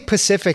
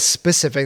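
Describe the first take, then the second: First: The word starts with a p sound, no s. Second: The word starts with an s sound. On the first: The speaker calls it wrong. "If you say Pacific instead of specific" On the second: The speaker calls it right. "instead of specific"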